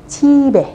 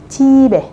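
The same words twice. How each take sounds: Both takes have the same delivery.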